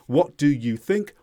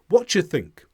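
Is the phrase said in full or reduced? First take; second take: full; reduced. First: Every word is pronounced fully and separately. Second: The words are run together with sounds dropped. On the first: "instead of" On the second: "we are speeding up our speech"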